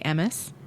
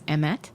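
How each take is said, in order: First: The word ends with an s sound. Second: The word ends with a t sound. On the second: "the Hebrew word for truth is emet"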